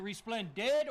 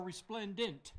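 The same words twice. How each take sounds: First: "resplendid" ending in a clear -did; alternative pronunciation. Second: "resplendent" ending in a clear -dent; alternative pronunciation. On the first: Santa asks which way to say it, "resplendid" with final D. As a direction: end "resplendid" on a hard D. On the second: Santa asks which way to say it, "resplendent" with final T. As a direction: end "resplendent" on a crisp NT. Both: Shown as a demonstration. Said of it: "Is it resplendid or resplendent?".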